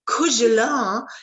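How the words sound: It is said with a French pronunciation. "The French will say cougelin"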